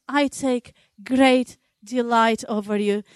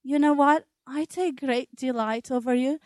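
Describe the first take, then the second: First: Lightly voiced loving God, gentle; a hint of God's tender voice. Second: Gentle, hushed voice of a loving God; voice of God, tender. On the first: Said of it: "He looks down upon us and says". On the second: Acted. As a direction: say it softly, as God comforting a worried mother. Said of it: "you hear the voice of God saying".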